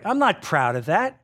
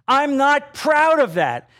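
First: Said in the usual way. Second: "proud" drawn out, high and loud; emphatic repeat. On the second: Real, not acted. Preacher confessing to his congregation, emphatic repeat. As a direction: hit "proud" hard and stretch it slowly.

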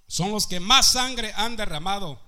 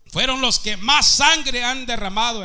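First: Said in the usual way. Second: Preaching shout. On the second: Real, not acted. Predicador clama sobre los nazis.

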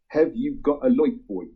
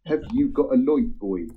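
First: Put-on a fond Norfolk accent on a song. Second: 1 Norfolk accent. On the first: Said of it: "that was my best Norfolk accent dialect there". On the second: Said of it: "light is spelled L O I G H T". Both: Shown as a demonstration.

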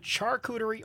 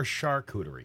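First: "charcuterie" starting with CH as in chair; "charcuterie" begun like the word "char"; hard CH pronunciation. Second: "charcuterie" starting with SH as in shoe; "charcuterie" begun like the word "shark"; soft SH pronunciation. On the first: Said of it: "Is it charcuterie or charcuterie?". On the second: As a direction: say "charcuterie" with a soft "shar" opening. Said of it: "I've heard it pronounced both ways". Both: Shown as a demonstration.

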